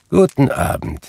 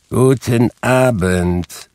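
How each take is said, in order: First: Higher, brusque good evening; short, final send-off; curt dismissal. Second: Slow, drawn-out, pointed good evening; higher, stretched-out final send-off; insistent dismissal. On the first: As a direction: cut the nephew off. Scrooge curtly dismisses the nephew. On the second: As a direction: show him the door, word by word. Scrooge repeats dismissal more insistently. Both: A narrator's reading.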